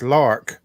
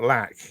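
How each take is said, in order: First: The name is said as 'Lark'. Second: The name is said as 'Lack'. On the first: The speaker calls it right. "it's it's Lark" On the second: The speaker calls it wrong. "not Lack"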